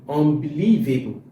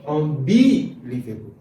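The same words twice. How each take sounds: First: The stress is on the fourth syllable. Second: The stress is on the second syllable. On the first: The speaker calls it right. "putting the stress on the fourth syllable" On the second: The speaker calls it wrong. "If I put it on the second one"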